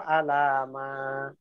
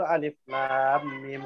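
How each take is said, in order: First: The letters are voweled together as one word. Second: Each letter is said by its full name. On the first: The speaker calls it wrong. "dibacanya fathah a-nya alif fathah a lam fathah" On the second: The speaker calls it right. "alif lam mim seharusnya begitu kan"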